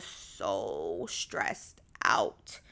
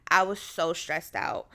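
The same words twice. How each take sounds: First: Very slow, stretching "so" and "out"; drawn-out emphasis. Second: Said in the usual way. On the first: Real, not acted. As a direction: drag out "so stressed out", dropping low. Stresses how stressed she was.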